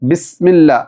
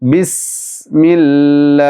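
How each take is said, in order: First: The s sound is short, not held. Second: The s sound is held with flowing air. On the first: The speaker calls it wrong. "അല്ലാതെ ബിസ്മില്ല അങ്ങനെയല്ല" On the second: The speaker calls it right. "അല്പം സമയമെടുത്ത് ഹോൾഡ് ചെയ്ത് ഉച്ചരിക്കണം"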